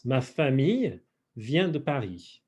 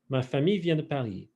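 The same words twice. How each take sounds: First: Measured French model, split after famille; phrase in pieces. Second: Said in the usual way. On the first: Shown as a demonstration. Teacher translating for the class, phrase in pieces. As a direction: pause between "Ma famille" and "vient de Paris".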